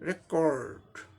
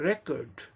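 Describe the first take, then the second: First: It has an American accent with audible r. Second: It has a British accent with silent r. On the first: "आर का raw sound आ जाएगा ... ये American में" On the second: "British English pronunciation"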